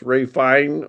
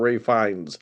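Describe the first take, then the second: First: The surname ends without an s sound. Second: The surname ends with an s sound.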